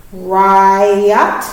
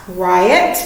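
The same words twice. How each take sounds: First: "Riot" as ri and ot, stretched; careful split read of "Riot"; syllable split demo. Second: Said in the usual way. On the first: Shown as a demonstration. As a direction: say "Riot" slowly in two parts. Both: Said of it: "what would this one be".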